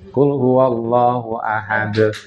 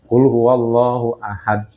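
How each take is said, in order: First: The final stops are said with an echoing bounce. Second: The final stops are said without an echoing bounce. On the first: The speaker calls it right. "mestinya pakai kol kol-kolah" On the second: The speaker calls it wrong. "tidak pakai kol-kolah"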